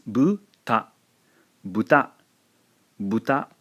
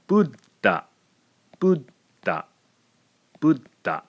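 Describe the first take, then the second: First: "buta" with the ta following straight on from bu; plain two-beat "buta", no silent gap inside; two-syllable buta. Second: "Buddha" said as but-ta, a silent beat before the second syllable; three-beat "Buddha" with a stopped, silent middle; three-beat butta. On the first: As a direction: say "buta" as two short syllables, no held consonant. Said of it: "The word for pig in Japanese". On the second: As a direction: cut "Buddha" off after the first syllable, pause, then ta. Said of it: "is now a three-syllable word". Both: Shown as a demonstration.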